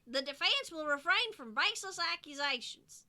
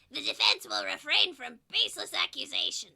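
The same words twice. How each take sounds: First: It is said without the character's voice. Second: It is said in a put-on character voice.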